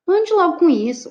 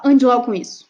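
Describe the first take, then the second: First: Higher, firm demonstrated order; hard command. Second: Same order at usual pitch, firmly weighted; softer command. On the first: Teacher demonstrating one way to give an order, hard command. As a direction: order it firmly, pitched up. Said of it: "Eu posso falar". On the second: Teacher demonstrating another way to give the order, softer command. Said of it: "ou eu posso falar". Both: Shown as a demonstration.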